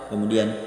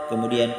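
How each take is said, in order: Both takes have the same delivery.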